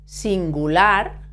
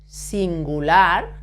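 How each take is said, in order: The two takes are said the same way.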